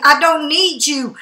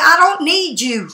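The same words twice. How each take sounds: First: "I don't need you" said slowly, each word laid down firmly; slow it right down so it lands; slow and emphatic. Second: Said in the usual way. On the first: Real, not acted. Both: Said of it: "That's the thing".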